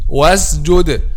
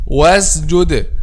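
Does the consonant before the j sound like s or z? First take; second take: z; z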